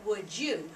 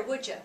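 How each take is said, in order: First: Said in the usual way. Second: "Would ya?" blended into one word, "you" reduced to "ya"; casual spoken "Would ya?"; run-together "would ya". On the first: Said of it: "We want them to say". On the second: Shown as a demonstration. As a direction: say "Would ya?" the way people really talk. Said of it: "they have to hear with their ear".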